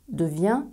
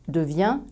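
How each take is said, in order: No difference in how they are said.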